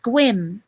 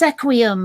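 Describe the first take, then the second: First: The name is said as one syllable. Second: The name is said with three syllables. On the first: The speaker calls it right. "but it's pronounced squim" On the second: The speaker calls it wrong. "it looks like it should be pronounced sequium"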